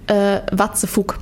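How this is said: It is pronounced with a German accent. "so richtig Deutsch-Englisch"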